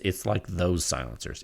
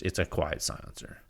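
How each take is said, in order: First: Said in the usual way. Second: Whispered, lower pitch. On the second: Shown as a demonstration. Reviewer whispering to show the silencer is quiet.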